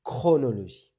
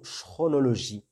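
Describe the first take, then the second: First: "Chronologie" with a firm k at the start, louder; correct hard ch. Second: "chronologie" wrongly starting with a French sh sound; mispronounced ch. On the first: Teacher correcting learners' mistake, "Chronologie" pronounced with hard k. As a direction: model "Chronologie" clearly, its "Ch" said as k. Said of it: "on doit le prononcer". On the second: Teacher showing beginners' likely mistake, "chronologie" mispronounced with sh. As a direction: say "chronologie" as if spelled "chronologie" with "ch" as in "chat". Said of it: "ils peuvent prononcer le mot chronologie".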